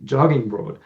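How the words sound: Jogging is pronounced the American way. "She pronounced this word jogging like an American"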